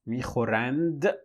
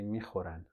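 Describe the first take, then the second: First: The final d sound is pronounced. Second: The final d sound is dropped. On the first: "technically, it should be" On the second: "the speakers just say"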